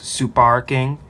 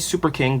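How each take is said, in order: First: It is said in a Japanese accent. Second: It is said in a plain English accent.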